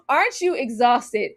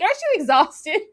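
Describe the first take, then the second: First: Said in the usual way. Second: Higher, rising mocking "Aren't you exhausted?"; mock question. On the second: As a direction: push "you" up into a teasing rise. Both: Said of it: "It's like".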